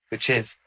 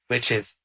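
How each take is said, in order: No difference in how they are said.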